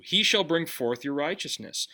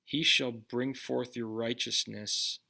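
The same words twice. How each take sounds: First: The word "shall" weighted firmly, falling; verse re-read with "shall" stressed. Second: Said in the usual way. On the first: Shown as a demonstration. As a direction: lean on "shall" to show the Lord will surely do it. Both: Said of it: "puts the emphasis on what the Lord himself is going to do".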